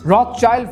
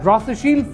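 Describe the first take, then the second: First: The second part sounds like 'child'. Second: The second part sounds like 'shield'. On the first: The speaker calls it wrong. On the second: The speaker calls it right.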